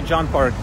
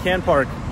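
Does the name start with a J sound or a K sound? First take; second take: J sound; K sound. First: The name starts with a J sound. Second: The name starts with a hard K sound. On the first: The speaker calls it right. "it's actually John Park" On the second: The speaker calls it wrong. "it looks like Can Park"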